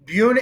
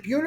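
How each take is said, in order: First: Buena said as BYOO-nuh; first pronunciation of Buena. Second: Buena said as BWAY-nuh; alternative pronunciation of Buena. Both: Shown as a demonstration. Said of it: "is it Buena or Buena".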